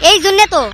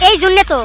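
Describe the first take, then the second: No difference in how they are said.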